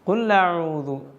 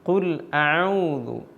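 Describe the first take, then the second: First: The glottal stop merges into a doubled l sound. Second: The glottal stop after the l is clearly heard. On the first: The speaker calls it wrong. "ഹംസ് ലാമിലേക്ക് ചേർന്നുകൊണ്ട് ഹംസിൻ്റെ ശബ്ദം കേൾക്കാതെ ഷദ്ദുള്ള ലാമായി" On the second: The speaker calls it right. "ഇങ്ങനെ തന്നെ കേൾക്കേണ്ടതുണ്ട്"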